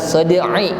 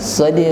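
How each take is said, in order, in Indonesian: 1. Ain di akhir diikuti vokal i. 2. Ain di akhir diucapkan tanpa vokal. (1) "tidak dibaca harokatnya" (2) "tetapi shad'"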